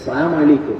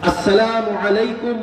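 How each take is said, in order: First: The greeting is clipped and shortened. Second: The greeting is said fully and clearly. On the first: The speaker calls it wrong. "এটা কোনো সালাম না।" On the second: The speaker calls it right. "এটা হইল সালাম।"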